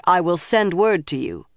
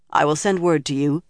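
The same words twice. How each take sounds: First: Insistent, mildly emphatic dismissal; firm repeat. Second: Brief, restrained dismissal; understated curt reply. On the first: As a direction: cut off the protest and end the matter. Repeats curt answer, cutting off protest. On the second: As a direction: close the subject without any fuss. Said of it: "the Amyrlin said curtly". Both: A narrator's reading.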